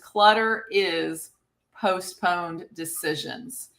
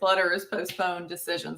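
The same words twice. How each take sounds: First: The phrase is said slowly and deliberately. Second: The phrase is said at a normal pace.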